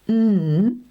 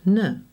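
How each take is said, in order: First: The n is said alone with no vowel. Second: The n is followed by an extra vowel sound. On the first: The speaker calls it right. "say the sounds in a pure way" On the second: The speaker calls it wrong. "and not"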